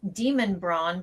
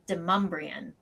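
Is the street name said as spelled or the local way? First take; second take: as spelled; local. First: It is pronounced the way it is spelled. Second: It is pronounced with the local pronunciation. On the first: This is how it would be said elsewhere. "would be pronounced Demonbron" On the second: This is how locals say it. "but here it's Demumbrian"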